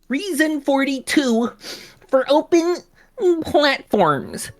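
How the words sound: It is read in a mocking, nerdy put-on voice. "I want to make him sound like a slimy nerd"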